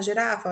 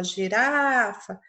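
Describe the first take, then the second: First: Said in the usual way. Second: "girafa" called slowly, RA held long; calling the word. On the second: Shown as a demonstration. Teacher calls "girafa" to show pupils the stress, stretching RA. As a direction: draw out the RA in "girafa". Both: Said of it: "Veja que o urá se estendeu".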